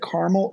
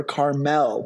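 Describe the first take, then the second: First: Carmel as CAR-mul, weak second vowel; first-syllable stress. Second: Carmel as car-MEL, ending like "mell"; full second vowel. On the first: Host unsure of the actor's surname, offering Carmel as CAR-mul. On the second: Host offering the other reading of the surname, Carmel as car-MEL. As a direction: give Carmel a clear MEL at the end. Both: Shown as a demonstration. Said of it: "pronounce that Carmel or Carmel".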